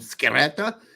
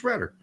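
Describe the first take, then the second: First: The name is said with Italian pronunciation. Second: The name is said with non-Italian pronunciation. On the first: This is how the name would be read in the original language. "that's how it would be pronounced in Italian" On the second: This is how the name's owner says it. "the way he wants me to pronounce it"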